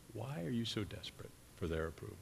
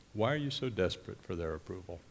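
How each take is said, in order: First: Much softer, almost to himself; soft, searching appeal; hushed, tender question. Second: Said in the usual way. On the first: Acted. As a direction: let the question drop to a hush. Voicing Jesus, repeats question softly.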